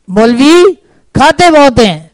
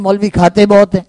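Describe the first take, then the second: First: مولوی rising, a pause, then کھاتے بہت ہیں falling; slow pointed repeat. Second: Said in the usual way. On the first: Shown as a demonstration. Preacher repeating the complaint to expose it, pointed pause. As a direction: set مولوی apart, then land on کھاتے. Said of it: "پہلا جملہ جھوٹ ہے یا دوسرا". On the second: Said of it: "دوسرا جملہ کہتے ہیں".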